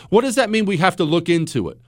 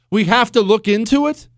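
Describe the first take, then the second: First: Said in the usual way. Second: Higher, rising disbelieving question; incredulous echo. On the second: Real, not acted. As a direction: throw the phrase back as a question. Echoes the vague phrase in disbelief.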